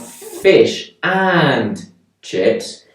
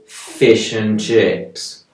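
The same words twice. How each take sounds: First: The word 'and' is fully pronounced. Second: The word 'and' is reduced to a weak 'un'. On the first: The speaker calls it wrong. "It's not" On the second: The speaker calls it right. "I'm using the weak form of un"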